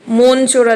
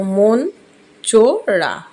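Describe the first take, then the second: First: Said in the usual way. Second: মন চোরা split as মন, চো, রা; syllable by syllable. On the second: Shown as a demonstration. Teacher counting three syllables, মন চোরা broken apart slowly. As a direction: say মন, pause, then চো and রা separately. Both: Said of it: "Just তিনটে দল".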